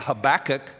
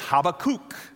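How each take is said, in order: First: The name has its familiar English pronunciation. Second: The name has its literal original pronunciation. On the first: This is the customary way people say the name. "most of us have learned to pronounce his name" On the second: This is closer to the name's original form. "The literal pronunciation is"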